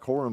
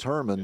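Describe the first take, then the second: First: The first vowel sounds like 'or'. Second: The first vowel sounds like 'er'. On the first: The speaker calls it wrong. "It looks like Horman" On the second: The speaker calls it right. "but it's Herman the way they pronounce it"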